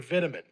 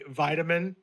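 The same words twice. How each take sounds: First: It is said in a British accent. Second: It is said in an American accent.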